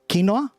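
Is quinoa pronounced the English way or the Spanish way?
Spanish. It is pronounced the Spanish way. "in Spanish I've heard it pronounced quinoa"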